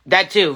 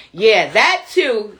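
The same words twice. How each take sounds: First: Said in the usual way. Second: "Yeah, that too" stretched out slowly; slow agreement. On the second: Real, not acted. Streamer agreeing with Joe, drawn out slowly.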